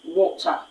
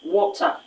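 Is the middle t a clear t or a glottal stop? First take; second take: clear t; clear t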